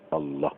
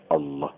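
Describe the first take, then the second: The two takes are said the same way.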